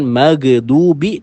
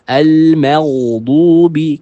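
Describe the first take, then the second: First: The ghain sound is thin and clipped. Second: The ghain sound is thick and flowing. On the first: The speaker calls it wrong. "Jadi bukan maghdubi" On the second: The speaker calls it right. "Kita baca dengan tebal dan mengalir"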